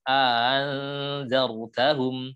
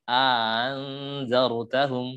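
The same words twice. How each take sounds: The two takes are said the same way.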